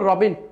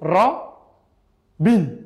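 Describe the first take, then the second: First: The word is said without any break. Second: The word is split with a break between syllables.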